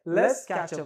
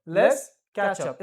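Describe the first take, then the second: First: Said in the usual way. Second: Slow, louder model take; slow, louder repeat. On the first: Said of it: "क्या बोलेंगे". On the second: Shown as a demonstration. Teacher repeating slowly so students copy. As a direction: stretch it out for the class. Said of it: "फिर से बोलो".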